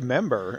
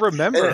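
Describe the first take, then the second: First: The word drops its first syllable. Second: The word keeps its first syllable. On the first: "I usually just say member" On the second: "Like the word remember"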